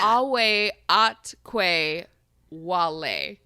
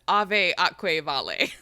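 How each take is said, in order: First: The v letters are pronounced as w sounds. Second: The v letters are pronounced as v sounds. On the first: The speaker calls it right. "the V's in Latin are pronounced like w" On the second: The speaker calls it wrong. "we've been pronouncing it as"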